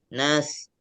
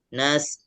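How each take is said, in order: The two takes are said the same way.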